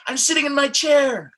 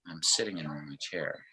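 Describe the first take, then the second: First: High, loud and bright with excitement; excited. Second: Much softer, lower and deflated; apathetic, soft mumble. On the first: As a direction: burst it out eagerly. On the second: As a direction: let it sag like you feel down. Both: Shown as a demonstration. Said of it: "There's an emotion behind what I'm saying".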